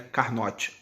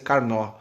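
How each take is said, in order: First: The name is pronounced in a non-French way. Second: The name is pronounced in the French way. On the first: The speaker calls it wrong. "Esse note aí não é Carnot" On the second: The speaker calls it right. "francês é Carnot"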